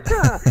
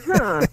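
First: Higher, drawn-out teasing huh, hamming up the hint; a mock aha that signals where this is going; knowing huh. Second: Knowing huh. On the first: To a student admitting he hates his teacher, a hammed-up knowing huh. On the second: Retold or imitated. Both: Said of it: "You can tell where I'm going".

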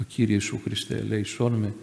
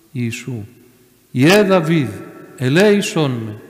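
First: Said in the usual way. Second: Imitated plea, rising to a loud call; faithful cry. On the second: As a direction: call out for mercy with unshakable faith. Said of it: "άρχισε να φωνάζει με πίστη ακλόνητη".

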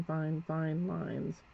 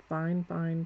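First: "fine, fine lines" stretched very slowly; slow right down on "fine, fine lines" as the brush drags; drawn out slowly. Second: Said in the usual way. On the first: Shown as a demonstration. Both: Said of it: "I'll just accent".

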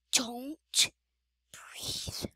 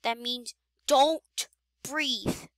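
First: Unvoiced hushed whisper. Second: Said in the usual way. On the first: Real, not acted. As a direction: breathe it out silently. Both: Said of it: "try not to make a sound".

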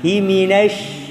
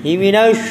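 First: "Himinash" slowly, lips kept back and flat; correct flat-lipped version. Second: "Himinash" said with the lips pushed forward; wrong lip-forward version. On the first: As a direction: show it right: a slow "Himinash" without pushing the lips. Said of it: "Jangan maju bibirnya". ("Himinash" pelan, bibir tidak maju) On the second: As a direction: show the mistake: "Himinash" with rounded, forward lips. ("Himinash" dengan bibir maju, contoh yang salah) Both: Shown as a demonstration.

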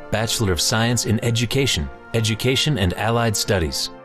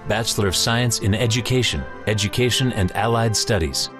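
The two takes are said the same way.

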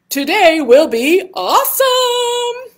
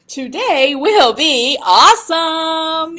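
First: High, loud cheer; rally the kids up; overbright kids party host. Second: Sung high and loud. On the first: Cheering final affirmation. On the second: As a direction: sing it out to the kids. Sings it back. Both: Acted.

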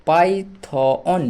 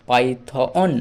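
First: Python stretched very slowly, syllable by syllable; drawn-out word. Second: Said in the usual way. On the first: Shown as a demonstration. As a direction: draw out Python slowly like a teacher. (Python ধীরে টেনে উচ্চারণ) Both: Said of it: "ওএন অন".

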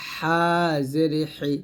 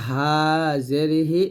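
First: হা জের হি, h squeezed from mid-throat; pressed throat ha. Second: Said in the usual way. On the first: Shown as a demonstration. Teacher repeats the contrast for learners, pressed হা and হি. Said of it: "চাপ দিয়ে বলতে হবে". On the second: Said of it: "নর্মালভাবে বলবো".

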